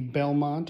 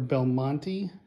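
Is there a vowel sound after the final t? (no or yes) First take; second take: no; yes. First: The name ends on the t with no vowel. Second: The name ends with an extra vowel after t. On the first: "depending on whether you pronounce that E at the end or not" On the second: "depending on whether you pronounce that E at the end or not"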